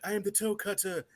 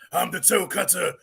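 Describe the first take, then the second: First: It is said in a soft, gentle voice. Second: It is said in a strong, menacing voice. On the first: The voice doesn't match the villain's face. The speaker calls it wrong. "he talks real soft like this" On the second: The voice fits the villain. The speaker calls it right. "that's the toe cutter"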